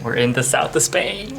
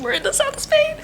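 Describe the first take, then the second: First: Excited announcement, louder at the end. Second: Very high, overjoyed squeal; excited squeal. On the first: Traveler telling viewers they made it to Spain, excited. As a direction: announce the arrival with building excitement. Excited arrival, first take. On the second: Traveler repeating to viewers where they are, squealing with excitement. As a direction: squeal the news in sheer delight. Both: Real, not acted.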